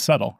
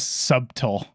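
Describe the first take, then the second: First: The middle consonant is silent in the word. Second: An extra middle consonant is sounded in the word. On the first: The speaker calls it right. "No, it's subtle, right?" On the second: The speaker calls it wrong. "It's the T in subtle. They would say"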